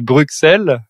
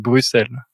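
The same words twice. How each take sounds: First: The middle consonant is said as ks. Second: The middle consonant is said as s. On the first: This is how the French tend to say it. The speaker calls it wrong. "on a tendance à le prononcer" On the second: This is how the city's own people say it. The speaker calls it right. "alors que c'est"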